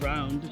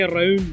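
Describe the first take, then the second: First: The r is soft and plain, unrolled. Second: The r is strongly rolled, Scottish style. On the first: "instead of round" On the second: "They say round"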